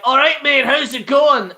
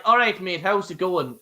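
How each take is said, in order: First: Higher, louder Scottish accent greeting; exaggerated Scottish demo. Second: A relaxed Irish accent greeting, nearly own voice; natural Irish demo. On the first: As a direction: show off a broad Scottish accent. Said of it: "Scottish is like". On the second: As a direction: say it the Irish way, easy. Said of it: "Irish is like". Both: Shown as a demonstration.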